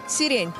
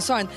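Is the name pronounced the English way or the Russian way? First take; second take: Russian; English. First: The name is pronounced the Russian way. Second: The name is pronounced the English way. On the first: "I listened to the Russian broadcast, and they're like" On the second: "I was like, siren, siren, siren"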